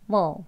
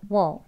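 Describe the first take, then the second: Both takes have the same delivery.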